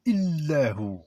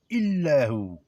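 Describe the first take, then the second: First: Said in the usual way. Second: Illahu with the L held long and pressed; doubled L. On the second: Shown as a demonstration. Teacher shows students the pressed L in Illahu. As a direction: lean on the L in Illahu, ill-lahu. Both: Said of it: "D'appuyer sur le L".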